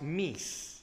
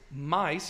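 First: The vowel sounds like 'ee'. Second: The vowel sounds like 'eye'. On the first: This is the original pronunciation. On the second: This is the modern pronunciation.

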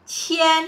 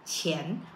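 First: The pitch stays high and level throughout. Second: The pitch rises through the syllable. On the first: It means thousand. "kalau ribu kita ada qian" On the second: It means money. "nada kedua"

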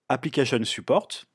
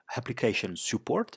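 First: It is said with a French accent. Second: It is said with an American accent.

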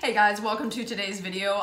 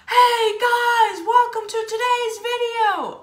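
First: It is said quietly and calmly. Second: It is said loudly and energetically.

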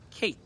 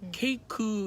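First: The word ends on a stressed bare k. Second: The final k is followed by an added vowel. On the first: The speaker calls it right. "이로 끝나더라도 으 소리를 안 내요. 끝에 있는 자음을 조금만 더 강조를 해주자" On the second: The speaker calls it wrong. "케이크 이렇게 했었잖아. 그렇게 말하면 안 된다 그랬지"

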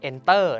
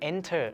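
First: The stress is on the second syllable. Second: The stress is on the first syllable. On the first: The speaker calls it wrong. "เราไม่ได้ออกว่า" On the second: The speaker calls it right. "เราออกว่า enter นะครับผมโอเคเราเน้นที่ n"

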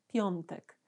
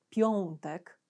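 First: The nasal vowel is articulated softly, not overemphasized. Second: The nasal vowel is articulated very distinctly. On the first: The speaker calls it right. "tylko mówię piątek" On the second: The speaker calls it wrong. "nie mówię piątek, czyli nie traktuję tej głoski bardzo wyraziście"

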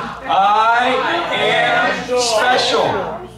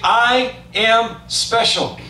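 First: It is said with excitement. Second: It is said in a plain, flat way.

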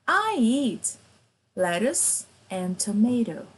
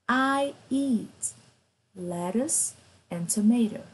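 No difference in how they are said.

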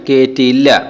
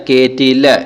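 No difference in how they are said.

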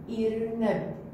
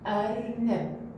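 First: The word begins with the vowel i. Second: The word begins with the vowel a. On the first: The speaker calls it wrong. "إذا اختارينا حرف الألف جوه كسرة ايش راح يصير؟ إي" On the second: The speaker calls it right. "إذا اختارينا حرف الألف عليه فتحة راح نقول أ"

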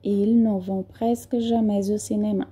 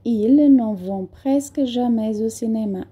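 First: A final consonant is linked to the next vowel. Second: A final consonant is linked to the next vowel.

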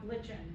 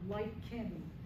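First: The word begins with a ch sound. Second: The word begins with a k sound. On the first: The speaker calls it wrong. "not lichen" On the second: The speaker calls it right. "The CH is a K sound"

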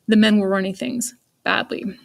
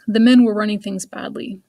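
First: There is a long pause before 'badly'. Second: There is no pause before 'badly'. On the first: The last bit is given strong emphasis. "Or if I really wanted some emphasis there, I could use a dash" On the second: The sentence is read plainly with no emphasis. "I can read it without any pauses in there"

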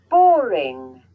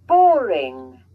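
The two takes are said the same way.

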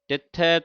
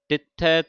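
The two takes are said the same way.

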